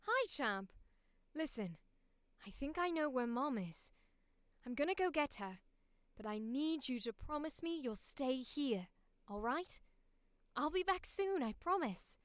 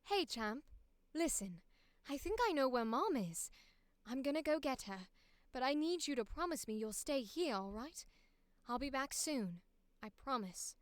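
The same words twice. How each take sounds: First: Put-on a light posh British accent, gentle and reassuring; a second reassuring posh British take; posh British accent, lightly done. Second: Put-on a light posh British accent, gentle and reassuring; big brother promising to return, in posh British; posh British accent, lightly done. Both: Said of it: "we're gonna do British here".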